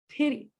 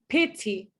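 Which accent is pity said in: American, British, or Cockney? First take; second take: American; British. First: The t is a quick, light tongue tap. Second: The t is a clear, crisp t sound. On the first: The speaker calls it right. "It's a small tap" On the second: The speaker calls it wrong. "It's not pity, bottle. That's U K English"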